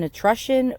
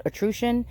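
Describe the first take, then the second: First: Etrusion with the middle vowel as in "rush"; short U in etrusion. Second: Etrusion with the middle vowel as in "true"; long OO in etrusion. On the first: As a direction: say etrusion as "uh-TRUSH-un". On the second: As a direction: say etrusion as "uh-TROO-shun", questioning. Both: Shown as a demonstration. Tries two pronunciations of word.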